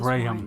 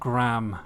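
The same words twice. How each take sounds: First: The name is said with a non-American pronunciation. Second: The name is said with an American pronunciation. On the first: The speaker calls it right. "it's Graham" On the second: The speaker calls it wrong. "The way Americans say Graham. It's not Graham"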